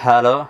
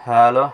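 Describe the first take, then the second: No difference in how they are said.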